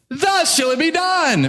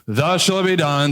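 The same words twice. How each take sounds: First: It is proclaimed with eager, lively enthusiasm. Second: It is mumbled with low, grudging energy. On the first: The herald is delighted to announce the honor. The speaker calls it wrong. "Haman had to have been thrilled as he sang this" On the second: The herald resents having to announce the honor. The speaker calls it right. "this is probably like half effort at best"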